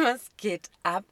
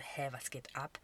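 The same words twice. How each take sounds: First: Louder, slow, outraged what the hell; exasperated, half-laughing exclamation; loud disbelief. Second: A baffled whisper; soft, voiceless bewildered aside; confused whisper. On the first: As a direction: drag it out in stunned outrage. Outraged reaction to controlling message. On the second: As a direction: whisper it under your breath, puzzled. Retold confused thought on missed calls. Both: Retold or imitated.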